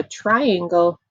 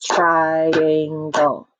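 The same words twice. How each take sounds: First: Said in the usual way. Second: "Triangle" in three long, level beats; split into syllables. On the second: Shown as a demonstration. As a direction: chant "Triangle" as TRI-AN-GLE for clapping. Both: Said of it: "Clap it with me".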